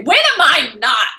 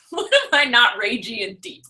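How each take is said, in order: First: Slow, louder mock-indignant retort; mock ragey. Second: Said in the usual way. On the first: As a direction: throw it back like it's obvious. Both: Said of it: "You're really ragey and deep today".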